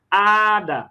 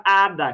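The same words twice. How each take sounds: First: ADA with the opening A drawn out; stress on first A. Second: Said in the usual way. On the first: Shown as a demonstration. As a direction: stretch the first syllable of "Ada". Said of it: "a mais forte é o A". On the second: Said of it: "Olha a palavra hada".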